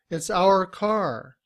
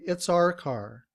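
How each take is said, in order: First: The word our is said in full form. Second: The word our is said in reduced form.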